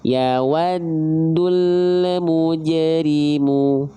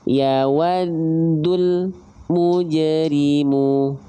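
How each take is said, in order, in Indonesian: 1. Sebuah konsonan dilepas dengan bunyi memantul. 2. Frasanya terputus dengan jeda. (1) "yang ketiga mantul" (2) "yang kedua terputus"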